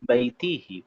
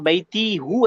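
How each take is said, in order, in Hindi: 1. सर्वनाम 'i' स्वर पर समाप्त होता है। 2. सर्वनाम 'u' स्वर पर समाप्त होता है। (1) "फोनेटिकल रीजन है" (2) "आप बैती हूँ ऐसा नहीं कर सकते"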